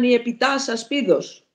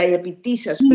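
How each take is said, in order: First: The article is said with an 'a' vowel. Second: The article is said with an 'i' vowel. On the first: This is the Doric dialect form. "οι Λάκωνες έχουν α, η δωρική διάλεκτος" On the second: This is the Ionic dialect form. "Η Ιωνική, που είναι στην Αττική εδώ, έχει ήτα"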